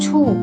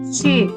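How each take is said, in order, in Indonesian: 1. Vokalnya terdengar seperti u biasa. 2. Vokalnya i dengan bibir membulat. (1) "bacanya bukan cu" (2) "tapi ci"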